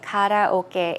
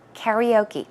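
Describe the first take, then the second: First: It is said with a Korean pronunciation. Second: It is said with an American pronunciation. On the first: "we say karaoke in the Korean or the Korean way" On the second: "Americans will say karaoke"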